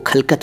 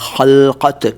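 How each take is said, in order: First: The k-like sounds are plain, not from throat. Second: The k-like sounds are made deep in throat. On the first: The speaker calls it wrong. "इसको खलकत मत कहिए" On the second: The speaker calls it right. "यह है खलकत। ख के नीचे भी नुक्ता है हिंदी में और क के नीचे भी नुक्ता है।"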